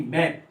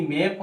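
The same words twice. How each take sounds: First: मैप with an open ऐ vowel; "मैप" with open ae, not ay; actual open A. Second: मैप said as "mape", with ay; "मैप" with a long e; expected AY vowel. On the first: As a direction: say मैप as English "map". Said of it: "पर ये हो रहा है". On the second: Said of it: "मैप होना चाहिए था". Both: Shown as a demonstration.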